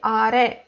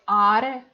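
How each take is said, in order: First: The stress is on the last syllable. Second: The stress is on the first syllable. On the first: The speaker calls it right. "I say are. ... the stress is for re" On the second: The speaker calls it wrong. "I don't say are"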